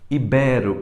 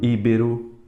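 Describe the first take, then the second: First: The stress is on the second syllable. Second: The stress is on the first syllable. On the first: The speaker calls it right. "São todas paroxítonas" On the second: The speaker calls it wrong. "e não íbero"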